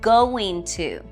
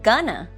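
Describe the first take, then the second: First: Both words are said fully and separately. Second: The words run together into one clipped form.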